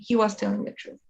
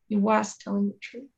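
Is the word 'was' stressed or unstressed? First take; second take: unstressed; stressed. First: The word 'was' carries no extra stress. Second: The word 'was' carries strong extra stress. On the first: It is a plain report of the claim. "I'm not saying he was telling the truth" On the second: It insists the claim really is true. "we emphasize it by putting more stress on it"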